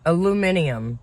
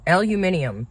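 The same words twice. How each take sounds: First: It is said with five syllables, British style. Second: The same.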